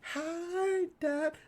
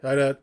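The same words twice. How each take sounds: First: It is said in a cute, pretty voice. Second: It is said in a plain, unsweet voice.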